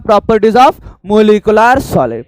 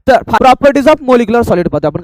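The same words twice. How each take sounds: First: Properties of molecular solid, each word drawn out very slowly; slow dictation. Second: Said in the usual way. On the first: Shown as a demonstration. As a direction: spell it out slowly for the class to repeat. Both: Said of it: "काय पाहतो बोला?".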